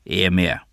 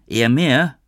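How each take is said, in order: First: Said in the usual way. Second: "Eher mehr" pitched up as a surprised question; questioning echo. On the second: A narrator's reading. Noah queries Lou's claim, "Eher mehr" raised in disbelief. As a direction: throw "Eher mehr" back, higher and questioning.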